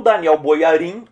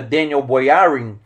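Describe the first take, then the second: First: Put-on "Daniel Boyarin" with Portuguese sounds, Da-ni-EW Bo-ya-RIN; Portuguese pronunciation. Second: The name in American English; American accent. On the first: Teacher gives the Brazilian form of the name, Portuguese pronunciation. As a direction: stress the last syllables of "Daniel Boyarin", Brazilian style. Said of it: "é aqui em português". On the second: Teacher contrasts it with the Portuguese form, American accent. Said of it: "o sotaque americano é". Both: Shown as a demonstration.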